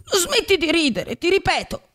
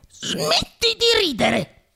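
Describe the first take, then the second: First: Threatening. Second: High, very slow piqued rebuke; irritated. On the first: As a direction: warn him a second time. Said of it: "urlò con voce minacciosa". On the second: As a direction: tell the puppet off, offended. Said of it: "disse Geppetto impermalito". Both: A narrator's reading.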